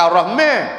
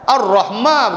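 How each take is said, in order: First: The vowel after m leans toward e. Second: The vowel after m is a plain open a. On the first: The speaker calls it wrong. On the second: The speaker calls it right.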